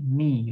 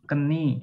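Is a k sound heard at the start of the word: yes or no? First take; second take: no; yes. First: No k sound is heard at the start. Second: A k sound is heard at the start.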